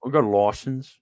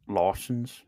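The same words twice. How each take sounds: First: Imitating an Aussie saying license; lightly Aussie, lawsense; mock Australian accent. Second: Mock Australian accent. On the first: American friend imitating Australian accent, mildly Aussie. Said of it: "that was actually very Aussie". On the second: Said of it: "Oh, yeah, not quite".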